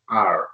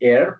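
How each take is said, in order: First: The letter is said like the word 'are'. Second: The letter is said like the word 'air'. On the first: The speaker calls it right. "but R" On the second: The speaker calls it wrong. "You don't say air"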